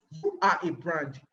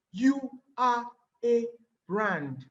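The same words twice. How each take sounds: First: "you are a brand" slow and lower, punching "you"; "you" stressed with a falling tune. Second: Slow "You are a brand" leaning hard on "are"; "are" stretched and stressed with a falling tune. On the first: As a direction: point it at them by hitting "you". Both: Shown as a demonstration. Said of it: "Read it again".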